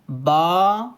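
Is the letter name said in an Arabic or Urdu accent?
Arabic. The letter name is said in an Arabic accent.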